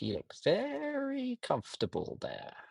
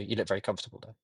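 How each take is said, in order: First: It is said in a playful, lively voice. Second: It is said in a flat, plain voice. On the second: "I didn't just go"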